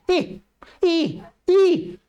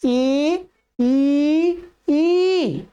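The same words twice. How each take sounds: First: ई clipped short and quick; too short vowels. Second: ई held full, rising on the last; proper vowel length. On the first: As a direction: rush each ई, the wrong way. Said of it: "ये क्या है, बहुत जल्दी से". (ई को बहुत जल्दी और छोटा बोलना) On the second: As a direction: sustain each ई its full measure. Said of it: "जैसा उच्चारण होना चाहिए". (ई को पूरी मात्रा से खींचकर बोलना) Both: Shown as a demonstration.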